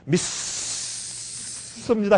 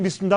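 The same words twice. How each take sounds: First: The word is drawn out and lengthened. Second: The word is said briefly at normal length. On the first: It counts as real belief. The speaker calls it right. "그 길게 해야지" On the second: It does not count as real belief. The speaker calls it wrong. "그냥 믿습니다 하면 안 된대요"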